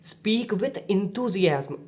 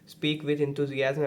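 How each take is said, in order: First: The voice varies in pitch with lively energy. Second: The voice stays flat in one monotone pitch. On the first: The audience understands the message more easily. The speaker calls it right. "Variation in tones के through इस तरीके से पढ़ सकते हो" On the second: The listener struggles to tell what is being expressed. The speaker calls it wrong. "देखो ये एक मोनोटोन लाइन है"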